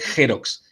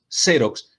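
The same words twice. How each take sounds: First: The first sound is a throaty J sound. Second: The first sound is an S-like sound. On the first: The speaker calls it wrong. "no es eh, Xerox. Entonces no es cualquier X que yo puedo pronunciar como J" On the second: The speaker calls it right. "la marca es Xerox"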